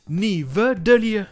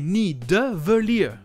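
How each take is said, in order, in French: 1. Le son v vient avant le son d. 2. Le son d vient avant le son v. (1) "Il inverse le D et le V" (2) "Le bon nom est Nidavellir"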